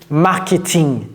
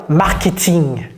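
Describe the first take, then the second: The two takes are said the same way.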